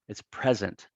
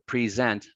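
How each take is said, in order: First: The stress is on the first syllable. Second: The stress is on the second syllable. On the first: It is used as a noun. "when it's a noun" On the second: It is used as a verb. "It only has a long vowel sound as a verb"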